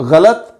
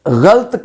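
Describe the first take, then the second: First: गलत as gha-lat; correct pronunciation. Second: गलत as ghalt, one syllable; mispronunciation demo. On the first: Teacher recapping the second word, गलत as gha-lat. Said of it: "जबकि दूसरा लफ्ज़". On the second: Teacher recapping what not to say, गलत as ghalt. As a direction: drop the a after ल in गलत, ghalt. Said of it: "इस तरह से". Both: Shown as a demonstration.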